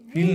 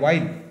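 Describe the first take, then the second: First: The vowel is a long 'ee' sound. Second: The vowel is an 'eye' diphthong sound. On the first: The speaker calls it wrong. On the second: The speaker calls it right.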